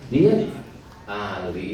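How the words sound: The two words are split by a break. The speaker calls it wrong.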